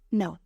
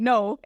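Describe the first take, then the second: First: The word is said softly and gently. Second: The word is said harshly and bluntly. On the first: "It's gentle" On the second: "it's not harsh. It's not saying no"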